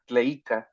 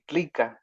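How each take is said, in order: First: The vowel after tl is an ei diphthong. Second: The vowel after tl is an i. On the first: This is the classical form. "the classical, it would be uh, tleica" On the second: This is how people from the hometown say it. "they would say tlica"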